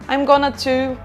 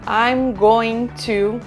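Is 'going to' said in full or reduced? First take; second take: reduced; full. First: "Going to" is reduced to "gonna". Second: Each word of "going to" is pronounced fully. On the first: This is the everyday American and Canadian way of saying it. "nos Estados Unidos e no Canadá, geralmente você fala" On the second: This is the more careful English way of saying it. "os ingleses, eles costumam falar as coisas mais certas"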